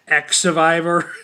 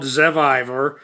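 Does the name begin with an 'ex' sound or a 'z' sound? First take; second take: ex; z. First: The name begins with an 'ex' sound. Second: The name begins with a 'z' sound. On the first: The speaker calls it wrong. "I was pronouncing it X Survivor" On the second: The speaker calls it right. "X can make the Z sound"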